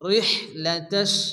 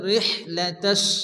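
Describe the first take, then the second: The two takes are said the same way.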